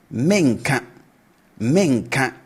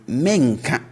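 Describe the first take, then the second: First: Menka begun high and falling; raised tone on menka. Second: Said in the usual way. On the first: Shown as a demonstration. Teacher repeating the future negative with a high start. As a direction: lift the start of menka, then drop it. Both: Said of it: "we raise the tone at the start of it".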